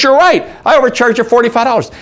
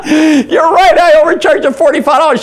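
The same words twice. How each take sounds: First: Said in the usual way. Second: High, loud words through mock laughter; imitated laughing. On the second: Waitress admitting overcharge to German customer, high imitated laughing voice. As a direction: say it as if cracking up. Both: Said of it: "She starts laughing".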